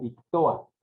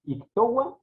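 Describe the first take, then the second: First: Ictoa said slowly as ik-to-a; no w glide. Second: Ictoa said slowly as ik-TO-wa; w glide. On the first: Teacher comparing two forms, ictoa without the w. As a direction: let o meet a directly in ictoa. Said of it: "se tienen que separar ahí". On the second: Teacher comparing two forms, Ictoa with a w glide. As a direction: put a clear w before the final a of Ictoa. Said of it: "suena como una W". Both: Shown as a demonstration.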